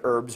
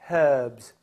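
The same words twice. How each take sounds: First: The word is said in a non-British way. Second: The word is said in the British way. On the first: The speaker calls it wrong. "you don't say herbs right" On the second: The speaker calls it right. "You're supposed to say herbs"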